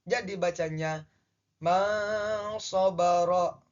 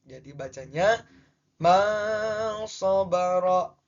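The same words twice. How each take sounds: No difference in how they are said.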